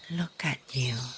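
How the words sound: It is said in an admiring, warm tone.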